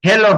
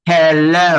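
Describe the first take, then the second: First: হ্যালো with a short, plain Bengali "o"; Bengali-style হ্যালো with short final vowel; wrong pronunciation. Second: হ্যালো drawn out with an English "-lo" glide; slow model হ্যালো, long gliding last syllable; correct pronunciation. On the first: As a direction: say হ্যালো quickly as "he-lo", no glide. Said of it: "হ্যালো হবে না". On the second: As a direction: stretch হ্যালো into "he-looow". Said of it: "কিন্তু জিনিসটা হবে হ্যালো". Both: Shown as a demonstration.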